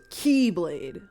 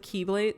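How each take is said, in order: First: The word is said with a drawn-out sound. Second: The word is said at normal length. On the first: It names the unique, different weapon. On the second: It names the ordinary weapon.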